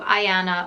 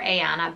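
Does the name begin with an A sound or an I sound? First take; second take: I sound; A sound. First: The name begins with an I sound. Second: The name begins with an A sound. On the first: "with the I" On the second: "or the A sound at the beginning"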